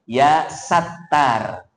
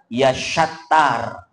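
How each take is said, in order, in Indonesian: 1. Nama itu diawali dengan bunyi s biasa. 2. Nama itu diawali dengan bunyi sh. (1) "tapi sin kecil" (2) "Ini salah, bukan pakai shin besar"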